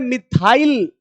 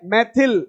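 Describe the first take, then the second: First: It is said the English way, like 'mi-thile'. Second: It is said the Hindi way, like 'mai-thil'. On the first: "अंग्रेजी में बोलते हैं मिथाइल" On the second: "Hindi में क्या बोलते हैं, मैथिल"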